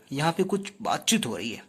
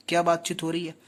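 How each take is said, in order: First: Said in the usual way. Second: क्या hit first and firmly as a question; question stressing क्या. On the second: Shown as a demonstration. Teacher quizzes students on the scene, stressing क्या. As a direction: lean on क्या to ask it.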